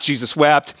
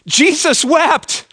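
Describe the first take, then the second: First: "Jesus wept" said low in pitch; low reading. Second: "Jesus wept" high and drawn out; emphatic reading. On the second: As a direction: proclaim "Jesus wept" slowly, pitched up. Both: Shown as a demonstration. Reciting same verse from many versions.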